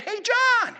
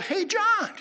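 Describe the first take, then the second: First: Very high, full-voiced holler; imitated louder yell. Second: Loud, high call across a street; imitated yell. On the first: Pastor calling a man who didn't respond, yelling louder. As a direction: holler harder to be heard. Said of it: "he yelled at him louder". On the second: Pastor calling to a man across the street, yelling. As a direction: call out to get his attention. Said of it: "he yelled".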